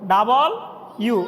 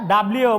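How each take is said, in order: First: The letter name is split into two parts. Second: The letter name is run together as one word. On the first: The speaker calls it right. "আমরা ভাঙ্গি ভাঙ্গি বলি ডাবল ইউ মানে দুইটা ইউ বলি" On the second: The speaker calls it wrong. "এটা কি বলতাম ডাব্লিউ বলতাম না"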